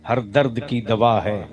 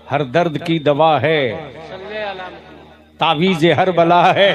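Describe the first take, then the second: First: Said in the usual way. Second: हर दर्द की दवा है shouted with दवा hit hard; loud. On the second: Shown as a demonstration. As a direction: call it out loud to the crowd. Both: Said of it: "जोर से".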